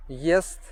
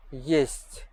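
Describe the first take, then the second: First: "Ест" ending on a hard T. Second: "есть" ending on a palatalized T; soft T. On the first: Teacher demonstrates tongue position, hard T in "Ест". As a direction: keep the end of "Ест" unsoftened. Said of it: "soft and hard T sound". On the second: Teacher demonstrates tongue position, soft T in "есть". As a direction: exhale through the soft T of "есть". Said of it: "exhale a bit stronger". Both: Shown as a demonstration.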